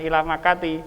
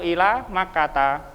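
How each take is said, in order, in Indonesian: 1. Nama itu berakhir dengan vokal 'i'. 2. Nama itu berakhir dengan vokal 'a'. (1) "bukan ila Makati ya" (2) "yang satu ila Makata"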